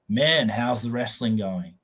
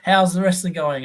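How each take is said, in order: First: It is asked sincerely, without giggling. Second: It is asked mockingly, with a giggle.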